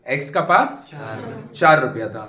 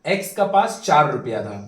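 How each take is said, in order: First: x का पास, then a pause, then चार रुपया था spoken as a separate beat; pause before चार. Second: Said in the usual way. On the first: Shown as a demonstration. Teacher repeating the example for students, pausing before चार. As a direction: split the line and set चार apart after a short break. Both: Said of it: "repeats the line, broken up".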